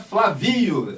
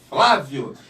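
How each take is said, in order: First: The stress is not on the first syllable. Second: The stress is on the first syllable. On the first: The speaker calls it wrong. "seu nome não é Flavio" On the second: The speaker calls it right. "porque a primeira sílaba é forte"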